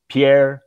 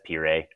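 First: "Pierre" said like French "pee-air"; wrong pronunciation. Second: "Pierre" said as two syllables "pee-ray"; corrected pronunciation. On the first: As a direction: say "Pierre" as pee-AIR, one syllable end. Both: Real, not acted. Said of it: "sorry, that's Pierre".

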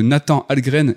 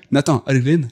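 First: Said in the usual way. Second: Nathan Algren said with a put-on Japanese accent; mock Japanese accent. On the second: Shown as a demonstration. Podcast host names the film hero, in a light mock Japanese accent. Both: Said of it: "et si je te dis avec l'accent".

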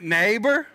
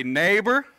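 First: NEIGHBOR called higher, with conviction; like you mean it. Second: Said in the usual way. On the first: Shown as a demonstration. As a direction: lift NEIGHBOR into an emphatic call. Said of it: "Say it like you mean it". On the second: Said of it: "touch your neighbor ... time and say".

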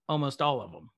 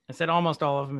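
First: Said in the usual way. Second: ALMOST carries the weight of the phrase; stress on ALMOST. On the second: Real, not acted. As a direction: underline "almost" as a caveat.

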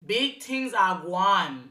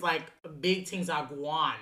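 First: Slow, hammy fake Jamaican accent. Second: Said in the usual way. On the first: Shown as a demonstration. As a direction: ham up a bad Jamaican accent. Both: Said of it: "my fake sucky ass Jamaican accent".

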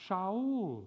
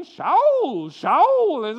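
First: Said in the usual way. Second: Put-on Shaul called out in a loud Jewish accent, slow. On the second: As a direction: call Shaul slowly in a Jewish mother's accent. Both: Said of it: "in her nice Jewish accent".

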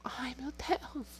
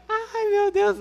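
First: Breathless whispered gasp of shock. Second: High, loud burst through laughter; loud laughing exclamation. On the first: Retold or imitated. Whispering in shock beside a friend on the phone. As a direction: hush it, horrified, so the parent won't hear. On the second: Real, not acted. Laughing loudly, telling viewers about the memory. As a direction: blurt it out cracking up.

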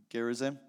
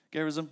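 First: Gerizim said hesitantly with a rising end; trying out Gerizim, unsure how to say it; unsure pronunciation. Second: Gerizim said again as a question, checking; testing the corrected Gerizim; corrected pronunciation. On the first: Preacher unsure of a Bible place name, rising uncertain guess. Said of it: "I'm gonna say". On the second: Preacher checks the place name with Chris, questioning. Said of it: "Chris, any corrections?". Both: Shown as a demonstration.

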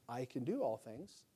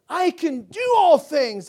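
First: "I can do all things" said low and soft, throwaway and flat; secular-sounding take. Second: "I can do all things" loud, high and slow, stress on "do"; proclaimed with faith. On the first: Pastor mocking the T-shirt slogan, low and soft. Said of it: "Sounds kinda secular". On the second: Pastor correcting the slogan for his church, loud and high. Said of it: "I don't just say". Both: Shown as a demonstration.

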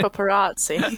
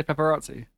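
First: Paparazzi said casually, laughing; plain paparazzi. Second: Paparazzi with a light, precise British vowel; posh paparazzi. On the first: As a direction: say paparazzi the everyday way. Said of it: "I say paparazzi". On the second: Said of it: "And I say paparazzi". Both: Shown as a demonstration.

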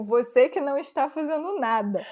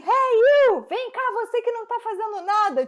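First: Said in the usual way. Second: Scolding. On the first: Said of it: "ela disse isso pro policial". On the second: Retold or imitated. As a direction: mimic her bossily yelling at the officer. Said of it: "ela deu uma bronca no policial".

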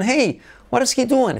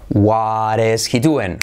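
First: "hey, what is he doing?" with a high lilting "hey" and a falling "doing"; rising hey intonation. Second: Slow model question. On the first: Teacher modelling a lively question for students, high and sing-song. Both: Shown as a demonstration. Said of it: "Entonación".

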